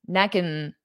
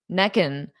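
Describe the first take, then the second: The two takes are said the same way.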